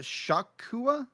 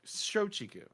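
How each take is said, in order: First: The word is said without a 'ch' sound. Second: The word is said with a 'ch' sound. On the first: The speaker calls it wrong. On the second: The speaker calls it right.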